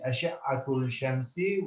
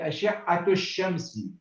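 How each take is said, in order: First: The L sound is pronounced before shamsi. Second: The L sound is dropped before shamsi. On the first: "you can still read it ... which is okay, fine" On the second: "you disregard the lam. And you say"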